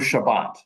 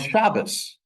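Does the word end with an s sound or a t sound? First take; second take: t sound; s sound. First: The word ends with a t sound. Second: The word ends with an s sound. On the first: "we say in modern Hebrew Shabbat"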